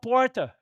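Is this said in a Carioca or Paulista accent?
Paulista. It is said in a São Paulo accent. This is how the visitor normally talks. "Se você é de São Paulo, você fala porta"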